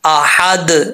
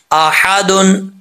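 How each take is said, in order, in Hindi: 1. यह शब्द बिना स्वर वाले अंतिम व्यंजन पर रुक जाता है। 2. यह शब्द पूरे स्वर वाले -un अंत पर खत्म होता है। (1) "अगर वक़्फ़ करेंगे" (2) "अगर साउंड में पढ़ेंगे"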